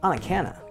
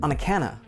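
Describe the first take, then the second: First: The words run together like one word. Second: The same.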